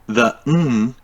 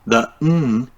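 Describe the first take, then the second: Both takes have the same delivery.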